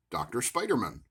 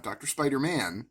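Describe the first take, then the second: First: "Spiderman" said as one word, stress on spi; Doctor Spiderman. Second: "Spider-Man" as two words, man clearly pronounced; Doctor Spider-Man. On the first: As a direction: run "Spiderman" together as one name. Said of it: "Not Doctor Spider-Man, Doctor Spiderman". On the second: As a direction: say "Spider-Man" with a full "man" ending. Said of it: "Not Doctor Spider-Man". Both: Shown as a demonstration.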